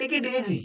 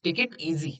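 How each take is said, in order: First: Lifted delivery. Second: Said in the usual way. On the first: Shown as a demonstration. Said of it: "तुम्ही ऐकलं असेल". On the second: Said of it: "थंड घे म्हणजे take it easy".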